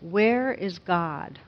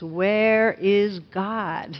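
First: It is said sternly but fairly quietly. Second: It is said loudest, almost shouted.

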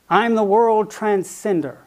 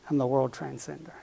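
First: It is said with a sharp, boastful edge. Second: It is said plainly, without a sharp edge.

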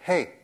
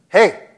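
First: It is shouted at a moderate volume. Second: It is shouted at a louder volume.

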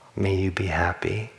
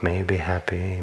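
First: It is said with sincere, determined feeling. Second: It is said flatly, without much feeling. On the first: The phrase is meant wholeheartedly. The speaker calls it right. "a little more determination, a little more sincerity" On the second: The phrase is recited without real intention. The speaker calls it wrong. "I'm just sort of like shallowly saying the phrases"

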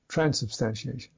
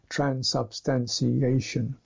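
First: One syllable is stressed and the ending rushes away. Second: All syllables get roughly equal weight and length. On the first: "Whereas a Briton would say transubstantiation" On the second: "if we were to say something like level syllable"

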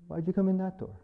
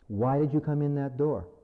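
First: It is said in a kind, gentle tone. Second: It is said in a harsh, accusing tone.

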